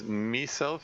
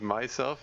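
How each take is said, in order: First: The word is said with an Irish accent. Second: The word is said with a standard accent. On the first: This is how the character in the game said it. "he says myself" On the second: This is the usual way to say it. "instead of myself"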